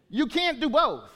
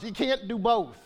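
First: Higher and louder, hammering it home; preacher pressing the point; emphatic repeat. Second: Said in the usual way. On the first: Real, not acted. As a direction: drive the point home the second time.

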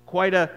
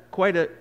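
Both takes have the same delivery.

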